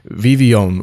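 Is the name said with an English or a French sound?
French. The name is said with a French sound. The speaker calls it right. "with a French influence"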